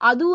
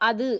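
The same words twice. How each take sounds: First: The final vowel is full with rounded lips. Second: The final vowel is short with unrounded lips. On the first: The speaker calls it wrong. "அது என்று சொல்லுவோமா? இல்ல" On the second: The speaker calls it right. "அங்க இதழ் குவிய இல்ல, ... அது என்றுதான் சொல்லுவோம்"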